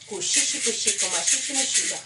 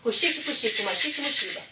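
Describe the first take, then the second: First: It is said at a normal speed. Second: It is said quickly.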